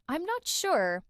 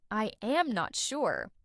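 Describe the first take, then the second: First: "I'm" run together as one quick syllable; "I'm not sure" linked, with a higher pitch on "not"; relaxed, conversational "I'm"; casual contraction. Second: Slow "I am not sure", each word separate; "am" given its full vowel and stressed; careful, drawn-out textbook "I am"; full uncontracted form. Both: Shown as a demonstration. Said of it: "instead of".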